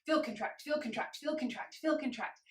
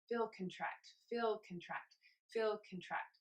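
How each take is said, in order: First: Quick, higher rhythmic chant of "feel contract"; anxious fast heartbeat. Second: Slower, softer "feel contract" chant; slow sleeping heartbeat. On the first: Instructor cueing an anxious heartbeat, quick higher chant. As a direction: rattle it off like a racing heart. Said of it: "imagine that you're in a state of anxiety". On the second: Instructor cueing a sleeping heartbeat, soft slow chant. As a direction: let it drift like a heart at rest. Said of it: "now it's a little bit slower". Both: Shown as a demonstration.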